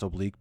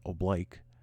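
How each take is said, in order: First: The word has its standard dictionary pronunciation. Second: The word has the Marine Corps pronunciation. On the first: "The word is pronounced oblique" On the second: "the Marine Corps wants you to call it oblique"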